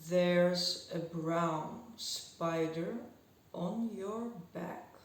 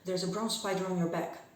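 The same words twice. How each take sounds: First: The sentence is spoken very slowly throughout. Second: The sentence is spoken very fast throughout.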